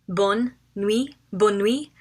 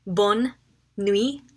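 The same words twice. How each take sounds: First: Bonne nuit said smoothly as one phrase; whole phrase. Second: Bonne and nuit split apart with a pause between; syllable by syllable. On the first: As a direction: join Bonne nuit together. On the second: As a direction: break Bonne nuit into its two words. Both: Shown as a demonstration. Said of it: "Good night is bonne nuit".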